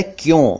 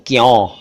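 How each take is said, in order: First: "क्यों" with closed nasal o; correct o vowel. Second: "क्यों" mispronounced "kyaun", open vowel; wrong au vowel. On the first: Teacher gives correct क्यों, o sound. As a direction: say "क्यों" as "kyohn". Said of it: "यह है क्यों". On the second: Teacher imitates many people's mistake, open au. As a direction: say "क्यों" as "kyaw". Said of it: "क्यों नहीं है". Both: Shown as a demonstration.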